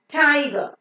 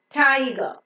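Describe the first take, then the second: No difference in how they are said.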